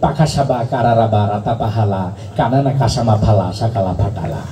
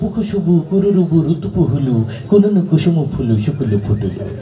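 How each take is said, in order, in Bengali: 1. প্রতিটি অক্ষরে স্বর a ব্যবহৃত হয়। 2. প্রতিটি অক্ষরে স্বর u ব্যবহৃত হয়। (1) "আকার আবিষ্কার করলো" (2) "রস্যুকার আবিষ্কার হইলো"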